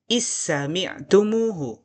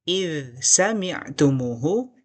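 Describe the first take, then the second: First: The dh merges completely into the following consonant. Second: The dh is pronounced clearly before the next consonant.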